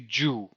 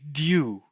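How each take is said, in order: First: It starts with a j sound. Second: It starts with d followed by a y glide. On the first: The speaker calls it wrong. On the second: The speaker calls it right. "say dew"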